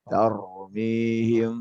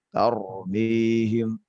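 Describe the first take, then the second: The two takes are said the same way.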